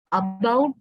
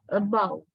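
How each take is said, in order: First: ABOUT with a heavy, full first A, rising; wrong full vowel. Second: ABOUT with a light schwa for A, falling; reduced schwa. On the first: Teacher showing about not like that, full-vowel mispronunciation. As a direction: hit the A of ABOUT as a strong vowel. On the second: Teacher giving the correct about, reduced schwa pronunciation. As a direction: say ABOUT with the first vowel weak and unstressed. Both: Shown as a demonstration. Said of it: "not like that".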